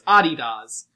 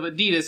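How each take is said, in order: First: It is said with a British pronunciation. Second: It is said with a non-British pronunciation. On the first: "like my British friend, ... it's Adidas" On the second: "instead of Adidas"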